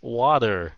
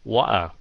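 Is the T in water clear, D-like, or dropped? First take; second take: D-like; dropped. First: The middle T sounds like a soft D. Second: The middle T is dropped completely. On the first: "sao đa số American phát âm T là D? Tại vì người Mỹ họ lười biếng. Like" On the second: "khi mà người Anh nói nhanh, họ bỏ cái chữ T luôn"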